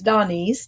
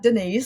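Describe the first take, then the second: First: The first syllable sounds like 'Don'. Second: The first syllable sounds like 'Den'. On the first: The speaker calls it right. "My father's name's Don, so it's Donese" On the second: The speaker calls it wrong. "not Denise"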